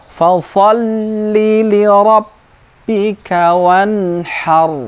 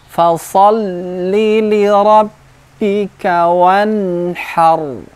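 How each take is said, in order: No difference in how they are said.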